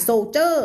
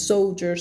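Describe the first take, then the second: First: "soldier" with a heavy, drawn-out final JER; mock wrong "soldier", so-JERR; overdone mispronunciation. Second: "soldiers" with a light ending and audible final S; SOLE-jers, S clearly sounded; correct plural ending. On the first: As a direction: exaggerate the last syllable of "soldier" as a Thai-toned "jer". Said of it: "ไม่อ่าน soldier ไม่ ไม่ต้องเจอขนาดนั้น". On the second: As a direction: finish "soldiers" on a clear hissed S. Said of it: "มี S ไหม ถ้ามี S ใส่". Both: Shown as a demonstration.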